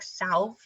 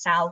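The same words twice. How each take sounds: First: The middle consonant is a V sound. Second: The middle consonant is a W sound. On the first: The speaker calls it wrong. "It kind of sounds like salve, or it looks like that" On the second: The speaker calls it right. "but it's actually pronounced salve"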